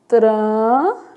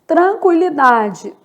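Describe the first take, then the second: First: Tranquilidade broken into separate syllables; split into syllables. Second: Said in the usual way. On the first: Shown as a demonstration. Teacher to student, splitting Tranquilidade syllable by syllable. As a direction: tap out Tranquilidade beat by beat. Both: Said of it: "word said whole then split".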